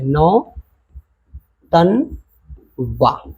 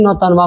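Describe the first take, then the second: First: Nautanwa very slowly as नौ, तन, वा, with long pauses; broken into syllables. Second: Said in the usual way. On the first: Shown as a demonstration. Teacher writing out the word for pupils, slow syllable by syllable. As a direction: stretch Nautanwa out in three separate pieces. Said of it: "इसको ध्वनि के base पे तोड़ो". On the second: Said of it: "शब्द को syllable करना है".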